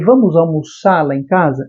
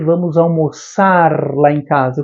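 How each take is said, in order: First: The final R of almoçar is dropped. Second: The final R of almoçar is pronounced. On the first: "eu estou falando sem o R" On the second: "eu não falei"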